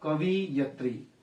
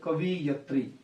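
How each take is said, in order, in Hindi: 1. 'i' की मात्रा 'v' के बाद आती है। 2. 'i' की मात्रा 'v' के बाद आती है।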